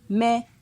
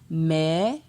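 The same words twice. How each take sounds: First: The syllable has a mid tone. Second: The syllable has a rising tone. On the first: "Ton moyen" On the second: "Ton montant"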